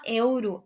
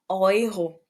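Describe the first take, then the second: First: The first vowel sounds like 'eh-oo'. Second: The first vowel sounds like 'oy'. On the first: The speaker calls it wrong. "A gente não fala euro" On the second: The speaker calls it right. "a gente fala euro"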